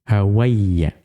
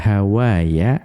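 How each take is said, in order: First: The middle has a doubled y sound. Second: The middle has a long a vowel. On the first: This follows the dialect of the poet's tribe. "alifnya diubah menjadi ya, menjadi Hawayya" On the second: This is the original form of the word. "beliau itu tadinya Hawaya"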